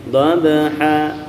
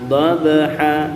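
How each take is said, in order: First: The b is released with a light bounce. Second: The b is released with a light bounce.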